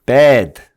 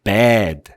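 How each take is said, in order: First: Bad said high and loud, bright E; raised E vowel. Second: Bad with the vowel sunk in the throat; lowered A vowel. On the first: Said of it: "제가 소리를 위로 올렸어요". (소리를 위로 올린 bad) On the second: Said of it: "소리를 아래로 내려요". (소리를 아래로 내린 bad) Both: Shown as a demonstration.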